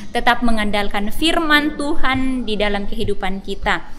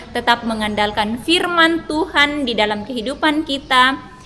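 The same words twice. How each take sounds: Both takes have the same delivery.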